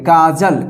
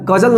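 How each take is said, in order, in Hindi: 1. पहला स्वर लंबा है। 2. पहला स्वर छोटा है। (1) "इस तरह पढ़िए" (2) "नहीं पढ़िएगा"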